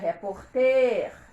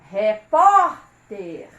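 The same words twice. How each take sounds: First: The stress is on the last syllable. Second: The stress is on the second syllable. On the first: The speaker calls it wrong. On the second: The speaker calls it right.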